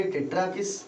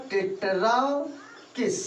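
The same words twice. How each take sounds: First: Said in the usual way. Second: tetrakis stretched slowly, pausing before किस; drawn-out term. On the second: Shown as a demonstration. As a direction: stretch tetra long, then land on किस. Teacher repeats term for pupils. (Tetrakis को खींचकर बोलना)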